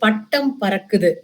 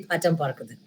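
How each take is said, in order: First: Said with strong, hard Tamil consonants. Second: Said with soft, unstressed English-style consonants.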